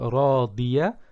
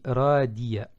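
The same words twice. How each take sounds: First: The D is a heavy emphatic sound. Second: The D is a plain French-like sound. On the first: They will live an agreeable life. The speaker calls it right. "au lieu de se prononcer Radiya" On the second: They will live a miserable life. The speaker calls it wrong. "en prononçant un D comme en français"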